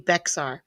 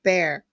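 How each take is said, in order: First: The word is said with an x sound. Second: The word is said like bear, no x. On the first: This is how the spelling reads. "which is actually Bexar" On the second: This is how the locals say it. "but they pronounce it Bear"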